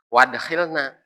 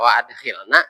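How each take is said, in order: First: The glottal stop is dropped, words run together. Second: The glottal stop is pronounced before adkhilna. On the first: The speaker calls it wrong. "Yang baca wadkhilna berarti salah" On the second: The speaker calls it right. "memang harus dibaca wa adkhilna gitu"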